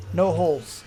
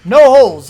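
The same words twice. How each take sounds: First: Said in the usual way. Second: No holes barked much louder; emphatic. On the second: Real, not acted. Correcting his own build mistake, No holes said loud and firm. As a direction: hammer home No holes.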